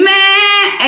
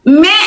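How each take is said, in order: First: The bleat sounds like a goat's bleat. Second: The bleat sounds like a cat's meow. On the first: The speaker calls it right. "बकरा जैसा करो" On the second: The speaker calls it wrong. "ये बिल्ली जैसा नहीं"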